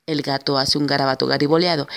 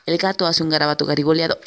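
Both takes have the same delivery.

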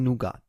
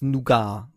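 First: The word is pronounced the American way. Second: The word is pronounced the French way. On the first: "im Amerikanischen Nougat" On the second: "im Französischen wird es Nougat gesprochen"

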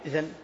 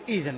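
First: The opening vowel is short and clipped. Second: The opening vowel is drawn out long. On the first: The speaker calls it wrong. "ما تقول إذن" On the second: The speaker calls it right. "إذا بدأت بها تقول إذن"

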